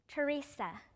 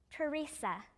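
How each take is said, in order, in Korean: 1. 이 이름은 영어식으로 발음돼요. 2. 이 이름은 영어식으로 발음돼요.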